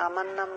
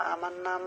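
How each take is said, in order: Both takes have the same delivery.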